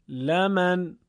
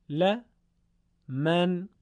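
First: «لمن» chanted as one unbroken "laman"; sung, run la and man together on a held tune; sung, joined reading. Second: «ل، من» as "la", pause, "man"; segmented reading. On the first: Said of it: "پیوسته و سرهم تلاوت کنید". (sung, «لمن» پیوسته و آهنگین) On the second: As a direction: split «ل، من» into two chanted parts. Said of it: "به صورت تفکیک شده، یعنی همون بخش بخش". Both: Shown as a demonstration.

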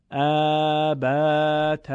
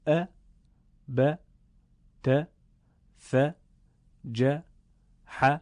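First: ا، ب، ت each drawn out into long vowels; wrongly stretched fatha. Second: ا، ب، ت، ث، ج، ح each a short separate beat; short fatha. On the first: Teacher demonstrating the mistake to students, stretched. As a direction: drag every vowel of ا، ب، ت. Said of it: "این اشتباهه". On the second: Teacher showing the correct fatha, short. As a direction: clip each vowel of ا، ب، ت، ث، ج، ح short, pause between. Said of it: "به این ترتیب". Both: Shown as a demonstration.

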